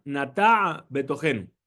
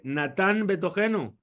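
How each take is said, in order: First: "Natá" open-ended with no final n, then "Betogenu"; the right reading, "Natá Betogenu" with no n; correct pronunciation. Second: "Natán Betogenu" with an n closing "Natán"; the common mistake, "Natán" ending in n; wrong pronunciation. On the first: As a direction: say "Natá" ending on a clean a, a little slow. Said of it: "es importante poner atención". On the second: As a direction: say "Natán" with a final n before "Betogenu". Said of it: "No es correcto". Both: Shown as a demonstration.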